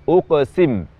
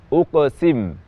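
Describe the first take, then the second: No difference in how they are said.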